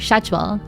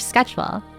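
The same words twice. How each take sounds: First: It begins with an sh sound. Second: It begins with an sk sound.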